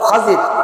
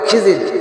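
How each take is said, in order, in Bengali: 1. প্রথম স্বরটি 'a' ধ্বনি। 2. প্রথম স্বরটি 'i' ধ্বনি। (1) "কিন্তু শব্দ হলো খাজির" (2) "মানুষ বলে খিজির"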